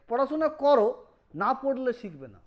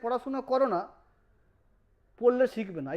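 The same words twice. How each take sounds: First: The pause comes before 'না'. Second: The pause comes after 'না'.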